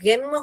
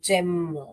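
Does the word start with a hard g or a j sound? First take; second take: hard g; j sound. First: The word begins with a hard g sound. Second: The word begins with a soft j sound. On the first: The speaker calls it wrong. "यहाँ ग करके पढ़ोगे तो गेम हो जाएगा, ये गलत है" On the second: The speaker calls it right. "ज ज एम जेम, ये ही सही है"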